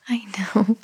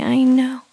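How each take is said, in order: First: Hushed soothing whisper. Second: Said in the usual way. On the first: Acted. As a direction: breathe it out softly to the baby. Comforting fussy baby.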